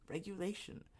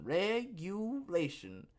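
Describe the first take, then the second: First: "Regulation" said softly and higher, at normal pace; hushed word. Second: "Regulation" stretched slowly, syllable by syllable, higher; drawn-out word. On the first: Host naming the word everybody hates, softly. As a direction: drop "Regulation" to a soft aside. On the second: Host naming the big R word, slowly drawn out. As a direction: draw out each syllable of "Regulation". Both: Shown as a demonstration.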